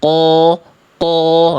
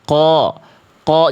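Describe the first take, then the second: First: The q sound is held back and muffled. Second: The q sound is open and pushed forward. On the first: The speaker calls it wrong. "jangan ko ko, nah jadi kayak terkungkung bunyinya" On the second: The speaker calls it right. "dibuka mulutnya"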